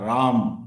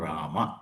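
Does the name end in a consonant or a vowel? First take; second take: consonant; vowel. First: The name ends on the consonant m. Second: The name ends on a final vowel a. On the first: This is how Hindi speakers say it. "ಹಿಂದಿನಲ್ಲಿ ಹೇಳುವಾಗ" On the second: This is how South Indian languages say it. "ದಕ್ಷಿಣ ಭಾರತದ ಭಾಷೆಗಳಲ್ಲಿ ಅದು"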